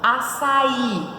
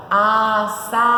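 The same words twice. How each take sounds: First: Said in the usual way. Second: Açaí in three long, loud syllables, a, ça, í; split into syllables. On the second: Shown as a demonstration. Teacher showing how to separate it, Açaí syllable by syllable. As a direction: pull Açaí apart, holding every syllable. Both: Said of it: "como que separa?".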